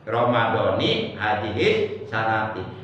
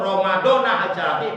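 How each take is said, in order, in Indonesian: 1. Ramadan diakhiri dengan harakat jar. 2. Ramadan diakhiri dengan harakat nashab. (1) "mesti dibaca J R" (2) "Kalau umpama dibaca nasab"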